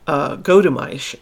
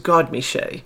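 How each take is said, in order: First: The name ends with an 'aysh' sound. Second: The name ends with a 'shay' sound. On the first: The speaker calls it wrong. "I was totally butchering the pronunciation" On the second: The speaker calls it right. "the audio clearly was what gave me the correct pronunciation"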